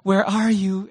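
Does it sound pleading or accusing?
pleading. It sounds like a desperate, pleading question.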